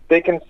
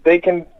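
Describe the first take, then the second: No difference in how they are said.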